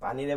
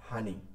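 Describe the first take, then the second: First: The word begins with a p sound. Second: The word begins with an h sound. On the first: This is the standard form. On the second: This is the regional dialect form.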